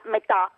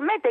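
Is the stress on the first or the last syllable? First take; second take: last; first. First: The stress is on the last syllable. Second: The stress is on the first syllable. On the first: It means half. The speaker calls it wrong. "non è la metà" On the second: It is the Greek preposition. The speaker calls it right. "non era una parola tronca... detto sulla penultima"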